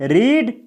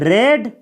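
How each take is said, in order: First: The vowel is a long 'ee' sound. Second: The vowel is a short 'eh' sound. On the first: It is the present form of the verb. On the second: It is the past form of the verb.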